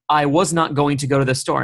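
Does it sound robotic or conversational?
robotic. It is said stiffly, like a robot.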